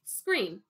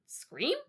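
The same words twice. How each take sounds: First: Put-on older man confirming "Scream" with a falling tune; repeated instruction. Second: "scream" high with a rising questioning end; baffled boy checking the word "scream"; puzzled question. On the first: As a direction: repeat "Scream" as a firm statement. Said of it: "he repeated". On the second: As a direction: ask "scream" uncertainly, pitch climbing. Boy doubts the instruction. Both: A narrator's reading.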